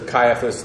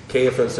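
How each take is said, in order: First: Caiaphas as KY-uh-fus; first-syllable KY. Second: Caiaphas as KAY-uh-fus; first-syllable KAY. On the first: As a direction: pronounce Caiaphas starting like "kai". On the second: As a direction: pronounce Caiaphas starting like "kay". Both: Shown as a demonstration. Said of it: "who's saying it".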